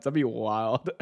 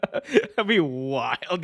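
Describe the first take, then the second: First: Said in the usual way. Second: Slow laughing repeat. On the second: Shown as a demonstration.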